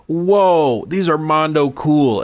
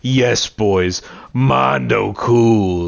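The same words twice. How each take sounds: First: High, wide-eyed awe, drawn-out whoa; gushing mock amazement in a higher voice; Gohan impression. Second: Slow, drawn-out mocking echo; Vegeta's head voice. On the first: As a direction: imitate an impressed kid, pitched up. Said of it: "Gohan goes". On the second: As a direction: imitate a sneering inner voice, stretching the last words. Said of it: "like, Vegeta's head voice going".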